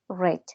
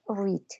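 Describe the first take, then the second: First: It is said with the past-tense pronunciation. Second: It is said with the present-tense pronunciation. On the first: The action happened before. "Y para el pasado, read" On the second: The action happens now. "En el presente tú lo lees read"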